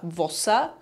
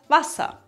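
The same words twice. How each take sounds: First: The first vowel sounds like an o. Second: The first vowel sounds like an a. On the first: This is the Austrian dialect form. "dass wir statt a ein o sagen" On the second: This is the standard German form. "statt Wasser"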